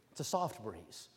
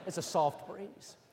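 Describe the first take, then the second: First: Much lower, softer, airy repeat; low hushed echo. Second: Slow drawn phrase. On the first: Preacher echoing the phrase low and hushed. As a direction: breathe it like a passing breeze. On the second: Preacher drawing out the phrase slowly. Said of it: "Anyway, that's a". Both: Shown as a demonstration.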